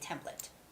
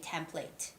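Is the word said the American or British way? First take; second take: American; British. First: It is said with an American pronunciation. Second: It is said with a British pronunciation. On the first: "in American English we say template" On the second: "in British English you guys say template"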